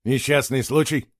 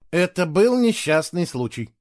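First: Questioning, incredulous repeat; surprised echo. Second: Slow, higher, measured delivery; calm statement. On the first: Boy doubting his friend's explanation, surprised. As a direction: echo it in disbelief. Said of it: "удивился Герик". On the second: Boy ending the shouting match, calm. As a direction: state it evenly, tired of shouting. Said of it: "спокойно сказал Фло". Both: A narrator's reading.

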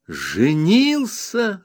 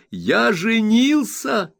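First: Narrator's own voice, glad echo; joyful exclaim. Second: High, slow proud exclamation; spring the big news with pride; Traddles announcing. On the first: Copperfield echoing Traddles's news, joyfully. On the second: Traddles telling Copperfield he is married, high and proud. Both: A narrator's reading. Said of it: "радостно воскликнул я".

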